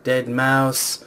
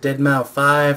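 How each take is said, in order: First: The name ends with the word mouse. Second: The name ends with the word five. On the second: "Is it Deadmau five"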